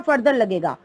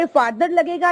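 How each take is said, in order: First: Further said "FUR-ther" before लगेगा; short central vowel in the first syllable of further. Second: Further said "FAR-ther" before लगेगा; long open ah in the first syllable of further; open "far" vowel. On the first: Teacher offering the other choice, further said "FUR-ther". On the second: Teacher asking which word fits, further said "FAR-ther". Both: Shown as a demonstration. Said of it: "दो आपके पास comparative degree है".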